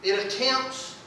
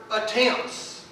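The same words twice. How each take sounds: First: Said in the usual way. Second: "attempts" set apart and said deliberately; single out "attempts" as its own firm word; stress on ATTEMPTS. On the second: Real, not acted. Preacher underlines a word for the congregation, stressing "attempts". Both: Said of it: "let me stress that word".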